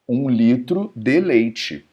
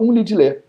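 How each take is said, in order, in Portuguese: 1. Cada sílaba da frase é dita por inteiro. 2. As palavras se juntam numa só palavra curta e reduzida. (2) "pronunciado por um mineiro da raiz lá, ele fala um lidilê"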